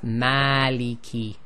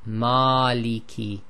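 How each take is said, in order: First: The 'a' vowel is light and open. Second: The 'a' vowel is heavy and dark. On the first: The speaker calls it right. "We say maliki because we need that ah sound" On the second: The speaker calls it wrong. "Maliki is too heavy"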